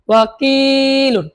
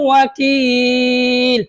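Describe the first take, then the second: First: The word keeps its full final ending. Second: The ending drops and the vowel is stretched. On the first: The reading continues without stopping. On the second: The reader stops at this word.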